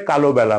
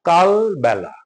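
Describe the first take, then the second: First: An added o, কালো বেলা; কালো বেলা with o after ল; common mispronunciation. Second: কালবেলা with no o after ল, "kal-bela"; কালবেলা as "kaal-bela"; correct pronunciation. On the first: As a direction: say "kalo-bela", three vowels before the last. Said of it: "ভুল করে কালো বেলা বলি". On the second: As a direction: close কাল firmly before বেলা. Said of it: "কালো বেলা না". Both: Shown as a demonstration.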